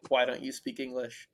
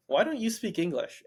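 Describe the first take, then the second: First: A mild judgmental "Why don't you speak English?"; a touch of disapproval on "Why don't you speak English?"; understated scolding question. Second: Said in the usual way. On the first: Retold or imitated. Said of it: "like, a judgmental". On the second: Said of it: "Sam says to him".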